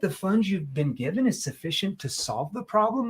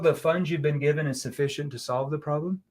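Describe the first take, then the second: First: It is said in a doubting, questioning voice. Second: It is said in a flat, monotone voice. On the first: The asker doubts the funds are enough. The speaker calls it right. "I'm going to put a doubtful tone" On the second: The question sounds routine and invites an easy yes. The speaker calls it wrong. "the wrong tone to use here... my tone is just a monotone tone"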